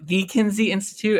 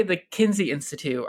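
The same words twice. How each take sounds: First: "the" stressed as in the one and only. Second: Said in the usual way. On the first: Shown as a demonstration. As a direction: lean on "the", meaning that famous one. Asks if it is the famous one.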